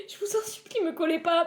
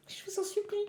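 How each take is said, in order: First: Much higher, pleading whine; mock begging. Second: Softer, high, hushed pretend plea; whisper-beg like a desperate kid; mock begging. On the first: Streamer begging her teacher watching the live, high pleading whine. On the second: Streamer begging her teacher watching the live, hushed and high.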